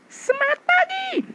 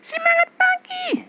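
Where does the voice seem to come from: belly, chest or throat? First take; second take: chest; throat. First: The voice sounds fuller and comes from the chest. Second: The voice sounds thin and comes from the throat. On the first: "Ini sudah suara sini, dada" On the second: "Ini masih sini loh"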